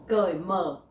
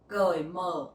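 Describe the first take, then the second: No difference in how they are said.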